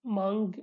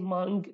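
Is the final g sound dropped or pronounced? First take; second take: pronounced; pronounced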